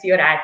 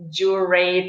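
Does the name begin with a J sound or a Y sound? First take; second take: Y sound; J sound. First: The name begins with a Y sound. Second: The name begins with an English J sound. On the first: The speaker calls it right. "it's Jūratė because it's silent. J is silent" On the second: The speaker calls it wrong. "usually everybody says Jurate"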